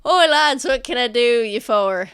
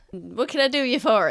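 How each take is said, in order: First: Merchant greeting. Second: Muffled. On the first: Merchant hailing the approaching guards, loud and hearty. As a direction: hail the guards cheerily. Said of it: "and then Sentha goes". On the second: Merchant's greeting heard muffled from the carriage. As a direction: repeat it as if heard through a wall. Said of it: "a little bit muffled". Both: Acted.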